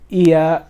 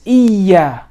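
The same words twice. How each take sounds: First: The y sound is short and single. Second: The y sound is held and doubled. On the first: The speaker calls it wrong. "You don't say um, iya" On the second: The speaker calls it right. "No, it's iya"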